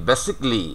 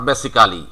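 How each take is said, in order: First: "basically" in three syllables, BASIC-lee; "basically" as basik-li; native-style "basically". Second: "basically" spelled out as BASI-KAA-LEE; "basically" in four syllables, basi-kaa-li; wrong "basically". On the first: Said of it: "এই কথাটাই ওরা বলবে". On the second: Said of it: "not basically". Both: Shown as a demonstration.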